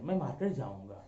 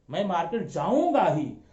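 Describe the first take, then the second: First: It is said as a plain, neutral statement. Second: It is said firmly, stressing the verb.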